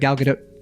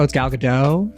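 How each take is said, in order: First: The final T is quick and soft. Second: The final T is not heard. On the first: The speaker calls it right. "you got to do it quick and soft" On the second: The speaker calls it wrong. "people barely hear the T"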